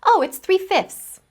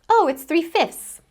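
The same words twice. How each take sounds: The two takes are said the same way.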